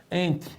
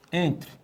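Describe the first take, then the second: No difference in how they are said.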